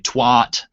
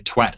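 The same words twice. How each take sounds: First: The vowel is drawn out and prolonged. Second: The vowel is short and clipped. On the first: This is how Americans say it. "They have to sort of twat prolong it" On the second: This is how the British say it. "they don't say twat"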